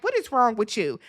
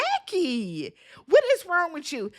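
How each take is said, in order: First: Said in the usual way. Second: High, incredulous question at Jackie; a viewer yelling at the TV in disbelief; shocked viewer. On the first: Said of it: "it's like". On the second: Retold or imitated. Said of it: "I was like".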